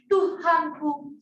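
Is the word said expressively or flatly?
expressively. It is said expressively, with feeling.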